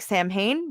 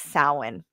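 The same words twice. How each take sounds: First: It is read as spelled, starting with 'sam'. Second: It starts with 'sow', like the ow sound. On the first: The speaker calls it wrong. "it looks like Samhain" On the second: The speaker calls it right. "but it's Samhain. That's how it's pronounced"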